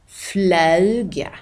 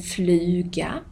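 First: "fluga" with öu for u, "flöuga"; Skåne diphthong. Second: Said in the usual way. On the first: Shown as a demonstration. Teacher showing local speech, "fluga" as "flöuga". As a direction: glide "fluga" through ö. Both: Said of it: "som ibland blir Ö".

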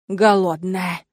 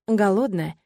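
First: Teasing demon. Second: Said in the usual way. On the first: A narrator's reading.

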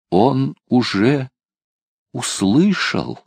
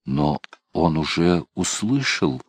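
First: «Он уже услышал» выше и медленно, с ударением на «услышал»; растянуть «услышал», выделив его; с нажимом. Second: Said in the usual way. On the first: A narrator's reading. Бухер повторяет с нажимом. (медленно и выше, с нажимом на «услышал»)

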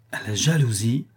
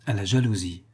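First: Rising, questioning JALOUSIE; surprised echo. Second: Said in the usual way. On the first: A narrator's reading. Servant echoing his master's words, surprised. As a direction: echo it back as a puzzled question.

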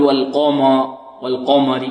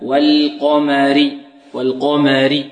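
First: "والقمر" with a dark, thickened "ma"; wrong heavy mim. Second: "والقمر" drawn out with thin, fronted "ma"; correct light mim. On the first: Teacher warns against the slip, heavy mim in "والقمر". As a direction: let the heavy qaf spill into the mim of "والقمر". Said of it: "لا نقول". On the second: Teacher corrects the slip, light mim in "والقمر". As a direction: slowly separate thick qaf from light mim in "والقمر". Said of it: "لا، والقمر". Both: Shown as a demonstration.

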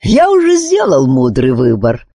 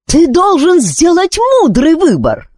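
First: Easy, lightly amused answer; untroubled, mildly teasing retort; amused reply. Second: High-pitched royal demand; exasperated, high, insistent order; angry cry. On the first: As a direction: throw the words back with amusement. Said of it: "рассмеявшись, отозвался чародей". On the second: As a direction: stamp your foot and cry out. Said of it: "топнула ногой и крикнула". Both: A narrator's reading.

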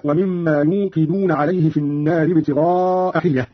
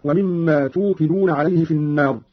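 First: Said in the usual way. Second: توقدون begun with t, "tuqiduna"; slow recitation, توقدون said "tuqiduna"; ta prefix. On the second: Shown as a demonstration. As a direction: clear t at the start of توقدون. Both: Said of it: "قرأ قالون بالتاء".

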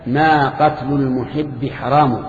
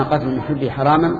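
First: "حرام" ending in a long u, haramu; slow verse recital, "حرام" closed on -u; Tamimi case ending. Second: "حراما" ending in -an, haraman; Qurayshi case ending. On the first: Teacher reciting the poet's reply as a Tamimi, "حرام" ended in -u. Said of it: "تميمي صار تميميا". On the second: Teacher showing how a Qurayshi would say it, "حراما" ended in -an. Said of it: "قرشيا". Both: Shown as a demonstration.

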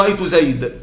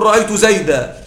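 First: زيد said with no final vowel; زيد clipped bare, like the Rabi'a tribe; Rabi'a dialect pause. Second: زيدا ending in a long a; زيدا with its final alif sounded; standard pausal form. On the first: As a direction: stop on زيد as zayd. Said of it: "هم يقولون أيضا". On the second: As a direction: stop on زيدا as zaydā. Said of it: "على الأفصح تقول". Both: Shown as a demonstration.

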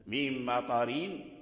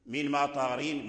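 First: من مطارين said slowly and softer, each letter of the R drawn out; teacher slowly modelling the R in مطارين; slow recitation demo. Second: Said in the usual way. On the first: Shown as a demonstration. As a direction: softly draw out مطارين. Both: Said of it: "الراء مكسورة".

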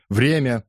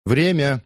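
First: Loud call, a bit less high. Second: High, loud call of time. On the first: The crowd repeats the call to stop the fight, shouted. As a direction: shout it across the crowd again. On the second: A man in the crowd calls time on the fight, shouted. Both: A narrator's reading. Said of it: "выкрикнули в толпе".

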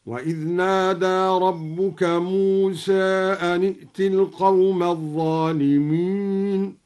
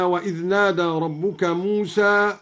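First: Chanted verse, موسى ending slightly toward "e"; taqlil on موسى. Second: Said in the usual way. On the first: Shown as a demonstration. Teacher shows taqlil, chanting موسى as "Muse". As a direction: chant it, tilting the final vowel of موسى from a toward e. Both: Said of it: "قلل موسى هكذا".

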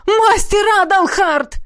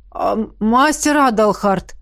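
First: Joyful greeting. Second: Drawn out. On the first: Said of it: "обрадовались Тиберлоны". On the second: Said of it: "протянул рыжий студент". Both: A narrator's reading.

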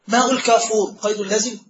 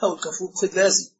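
First: ماء الكافور قيد لازم؟ asked as a question to the class; asking question. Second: ماء الكافور قيد لازم as a falling statement, lower, softer and faster; confirming answer. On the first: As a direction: put it to the students as an open question. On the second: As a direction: settle it with a firm falling answer, lower and quicker. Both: Shown as a demonstration. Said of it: "آه، نعم".

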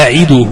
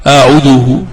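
First: أعده said a'iduhu, i-vowel after the ayn; kasra on the ayn. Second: أعده said a'uduhu, u-vowel after the ayn; wrong form, damma. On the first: Teacher models the verb form, kasra on the ayn. Correct form set against wrong one. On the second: Teacher shows what not to say, damma on the ayn. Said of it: "ولا تقل". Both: Shown as a demonstration.

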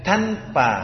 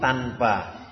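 First: "tanpa" with an airy, aspirated t; Arabic-style t opening "tanpa"; hissed T. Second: "tanpa" with a clean Indonesian t; slow, low "tanpa", no air after the t; unaspirated t in "tanpa"; T without hiss. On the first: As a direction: wrongly add a hiss after the t of "tanpa". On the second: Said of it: "jangan dikasih desis". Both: Shown as a demonstration.

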